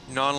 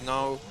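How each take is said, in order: First: Non said the French way, nasal vowel. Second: Said in the usual way. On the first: Shown as a demonstration. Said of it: "think of the people in Quebec as no, non". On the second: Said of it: "no, non, like, legitimate".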